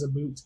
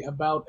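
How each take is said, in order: First: "a boot" with a long oo for "about"; "a boot", ending in a clear oot; mock Canadian pronunciation. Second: Said in the usual way. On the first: Shown as a demonstration. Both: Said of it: "you say about as a boot".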